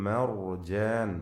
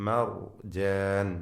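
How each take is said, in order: No difference in how they are said.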